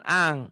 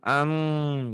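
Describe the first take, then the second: First: It ends in a nasal ng with open lips. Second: It ends in a nasal m with closed lips. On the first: The speaker calls it wrong. "Jangan ang" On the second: The speaker calls it right. "Bibirnya tetap mingkem tapi bindeng. Am gitu"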